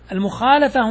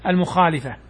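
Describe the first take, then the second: First: المخالفة with an open "a" after the lam, al-mukhaalafa; fatha on the lam. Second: المخالفة with an "i" after the lam, al-mukhaalifa; kasra on the lam. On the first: Teacher shows students the correct vowel, المخالفة with "la". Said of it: "هنا بفتح اللام". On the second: Teacher warns students off this form, المخالفة with "li". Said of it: "لا يصح أن تقول". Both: Shown as a demonstration.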